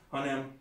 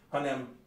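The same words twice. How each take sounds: No difference in how they are said.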